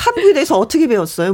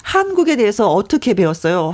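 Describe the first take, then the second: First: Quick, rushed question; tossed off quickly; fast question. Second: Spelled out more slowly for her; slower, clearer repeat. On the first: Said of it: "뭐라고?". (빠르게 묻는 질문) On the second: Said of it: "네?". (천천히 또박또박 다시 묻기) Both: Real, not acted.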